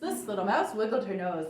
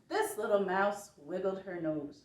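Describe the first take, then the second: First: It is said at a very fast pace. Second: It is said at a slow pace.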